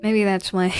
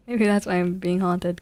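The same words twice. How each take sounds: First: Said in the usual way. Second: Laughing through the words; amused at his own joke. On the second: Real, not acted. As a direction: let a laugh break into it.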